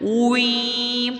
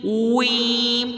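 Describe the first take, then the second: First: The lips start rounded, then spread for the vowel. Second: The same.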